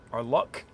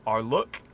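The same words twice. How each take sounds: First: "luck" with the open southern u, as in "cup"; "luck" said the standard way. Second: "luck" with a short rounded Yorkshire u, like "look"; "luck" rhymed with "look"; northern luck. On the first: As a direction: correct "luck" to "lʌk". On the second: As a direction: say "luck" as "lʊk", the Sheffield way. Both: Shown as a demonstration. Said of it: "this is where my accent gets tripped up".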